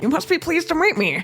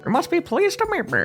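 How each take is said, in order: First: Put-on pinched nasal old gent, again; nasal Kinger voice. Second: Put-on pinched nasal old gent; nasal Kinger voice. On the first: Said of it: "Oh, do that". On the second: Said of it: "He has, like, a nasally voice". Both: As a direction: squeeze it through the nose like Kinger.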